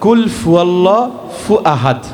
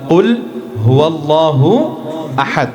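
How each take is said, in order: First: The word after qul starts with an f sound. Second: The word after qul starts with an h sound. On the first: The speaker calls it wrong. "তারা পড়েন" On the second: The speaker calls it right. "আমরা জানি এটা হবে"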